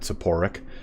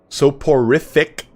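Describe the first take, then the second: First: The word is said with three syllables. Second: The word is said with four syllables. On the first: The speaker calls it wrong. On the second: The speaker calls it right.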